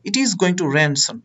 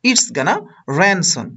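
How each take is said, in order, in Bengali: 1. Going to পুরোটা বলা হয়, দুটি শব্দ হিসেবে। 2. Going to সংক্ষেপে এক শব্দ হয়ে যায়, gonna।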